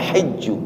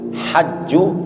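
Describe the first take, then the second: First: The first vowel is a high 'i' sound. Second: The first vowel is an open 'a' sound. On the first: "ada yang kasrah haknya" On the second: "ada yang pakai fathah haknya"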